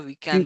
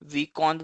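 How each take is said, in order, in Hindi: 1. दूसरे अक्षर में 'e' स्वर है। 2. दूसरे अक्षर में 'o' स्वर है। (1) "वीकेंड होता" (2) "वीकॉन्ड नहीं होता"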